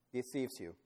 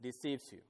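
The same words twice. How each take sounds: First: "Deceives" answered firmly, falling; stress on deceives. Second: "deceives" set apart, soft and falling; stress on deceives. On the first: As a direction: drive home "Deceives you". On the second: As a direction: lean on "deceives you" quietly. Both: Shown as a demonstration. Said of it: "we're gonna make an emphasis on this word".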